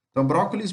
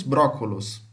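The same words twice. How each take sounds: First: Brócolis said the Brazilian way, ending in -is; Brazilian form. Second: Brócolos said the Portugal way, ending in -os; Portuguese form. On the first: (brócolis com final -is, como no Brasil) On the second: (brócolos com final -os, como em Portugal) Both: Shown as a demonstration. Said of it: "o final da palavra que muda".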